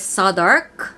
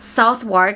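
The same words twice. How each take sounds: First: The name is said in a shortened local form. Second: Every letter of the name is sounded as spelled. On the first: The speaker calls it right. "it is Southwark" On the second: The speaker calls it wrong. "this one is not Southwark"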